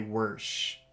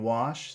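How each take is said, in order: First: The word is said with an added r sound. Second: The word is said without an added r sound. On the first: "accents in English that put R's in weird places" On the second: "instead of saying wash"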